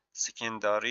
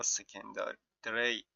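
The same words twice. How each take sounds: First: سکنداری said with a long a: se-kan-DAA-ri; secondary said as سکنداری, long aa before the r; sekandari pronunciation. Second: سکندری said short and quick: se-kan-da-ri, no long vowel; secondary said as سکندری, short a before the r; sekandari pronunciation. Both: Shown as a demonstration.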